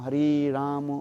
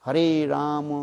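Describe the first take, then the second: First: The vowel in Ram is long. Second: The vowel in Ram is long.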